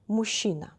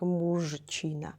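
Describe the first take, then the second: First: The consonant cluster is merged, not every letter sounded. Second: Every letter of the consonant cluster is sounded. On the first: The speaker calls it right. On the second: The speaker calls it wrong.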